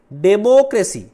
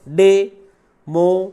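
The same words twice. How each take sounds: First: "democracy" in one unbroken run, loud and high; said as one word. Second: "democracy" slow and loud, split as डे, मो, क्रे, सी; four separate beats on "democracy", pausing between each; syllable by syllable. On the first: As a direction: say "democracy" whole, leaning on मो. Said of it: "आपने one word में पढ़ा होगा". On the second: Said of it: "democracy में चार है". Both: Shown as a demonstration.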